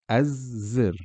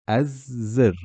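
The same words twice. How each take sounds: No difference in how they are said.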